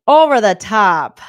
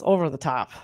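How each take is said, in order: First: OVER and TOP punched loud; drawn-out, loud "Over the top"; emphatic repeat. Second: Said in the usual way. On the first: Real, not acted. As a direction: hammer OVER THE TOP slowly and loudly. Emphatic repeat of own phrase.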